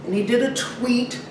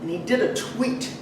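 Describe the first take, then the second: No difference in how they are said.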